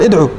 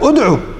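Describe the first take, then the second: First: The opening vowel is an 'i' sound. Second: The opening vowel is a 'u' sound. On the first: The speaker calls it wrong. "كثير من الناس يلحن بها يقول ادعو" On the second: The speaker calls it right. "ادعو بالضم"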